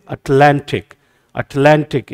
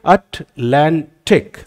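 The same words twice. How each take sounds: First: Atlantic as one word, punch on लां; stressed second syllable. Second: Atlantic in three slow, separated beats; slow teacher's syllable count of Atlantic. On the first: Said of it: "stress लगा दिया और बोला कैसे". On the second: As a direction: break Atlantic into अट, लां, टिक. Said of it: "कितने syllables हैं यहाँ पे". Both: Shown as a demonstration.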